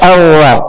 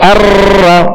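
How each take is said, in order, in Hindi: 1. r में बिल्कुल कंपन नहीं है। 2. r में ज़ोरदार कंपन है, कई बार। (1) "मुशाबत तकरार के बगैर अदा करेंगे तो रा औवा पढ़ा जाएगा" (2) "ये बहुत सी रा पैदा होगी"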